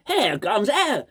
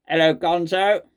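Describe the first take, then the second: First: Slow, drawn-out posh English hello. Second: Robot voice. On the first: Vlogger redoing the caller's greeting in a posh accent. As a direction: stretch it out like a toff answering the phone. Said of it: "that's quite a posh". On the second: Vlogger redoing the caller's hello, in a mild robot voice. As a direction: say it like a stiff machine greeting. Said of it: "the hello in the robot voice". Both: Retold or imitated.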